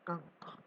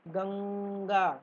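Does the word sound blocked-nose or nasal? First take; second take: blocked-nose; nasal. First: The word is said with the nose pinched shut. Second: The word is said with open, nasal resonance. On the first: "नाक बंद करके बोलेंगे तो" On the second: "नाक में से आ रही है न की आवाज"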